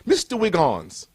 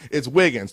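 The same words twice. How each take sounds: First: Put-on slow English-accented Mister Wiggins, the name said like Wiggons; a stern English professor calling out the name; a light imitation of an English professor's accent. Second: Wiggins said with a short i in both syllables, no O sound; correct pronunciation. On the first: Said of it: "He had that accent". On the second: Shown as a demonstration. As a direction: say Wiggins firmly, the way it's spelled. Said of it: "There's no O in my name".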